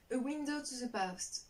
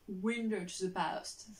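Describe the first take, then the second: First: Slow attempt at an English accent. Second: Slower, drawn-out English accent; showy English accent. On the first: French vlogger reading an English book title, careful English accent. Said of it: "mon accent anglais qui est ouf". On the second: French vlogger jokingly boasting of her English, showy slow English accent. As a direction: show off your English accent, very slowly. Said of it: "Vous avez vu mon accent anglais qui est ouf". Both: Shown as a demonstration.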